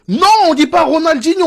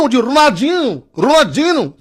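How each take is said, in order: First: High-pitched imitated protest over Ronaldinho; mock objection. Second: High, sing-out Brazilian "Ronaldinho"; mock Brazilian accent. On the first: Brazilians pestering him about a name, mock objection. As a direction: play an exasperated pedant correcting "Ronaldinho". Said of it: "s'ils venaient nous faire chier". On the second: Brazilians correcting how he says the name, mock Brazilian accent. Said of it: "les Brésiliens".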